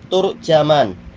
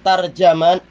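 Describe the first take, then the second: First: The first syllable has u, the second has a. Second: Both the first and second syllables have an a vowel. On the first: "bi dhammit ta wa fathil jim" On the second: "dengan ta dan jim yang di fathah"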